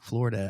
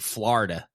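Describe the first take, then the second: First: The first vowel sounds like 'oh'. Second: The first vowel sounds like 'ah'. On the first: The speaker calls it right. "it's an O" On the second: The speaker calls it wrong. "it is not an A"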